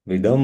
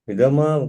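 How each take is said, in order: First: The word ends on a bare 'm' consonant. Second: The word ends with a final 'a' vowel. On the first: The speaker calls it right. "नीचे है तो हम्म होगा" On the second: The speaker calls it wrong. "विदमा किसने बोला है?"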